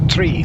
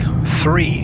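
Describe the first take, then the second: First: The word begins with a plain t sound. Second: The word begins with a th sound. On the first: The speaker calls it right. "We say tree, like the forest tree" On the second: The speaker calls it wrong. "We also don't say three, like number three"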